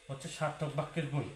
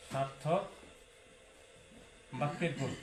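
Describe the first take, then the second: First: Said in the usual way. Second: "সার্থক" and "বাক্যের গুণ" said apart, each set off by long pauses; slow emphatic with pauses. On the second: Shown as a demonstration. Teacher drilling the key exam topic into students, slow with long pauses. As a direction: spell out "সার্থক ... বাক্যের গুণ" word by word so it sinks in. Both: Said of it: "এটা সর্বোচ্চ important".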